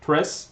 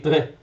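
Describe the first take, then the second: First: The final S sound is clearly pronounced. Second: The final S sound is left off. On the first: "instead of saying tres" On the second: "They drop the S very often"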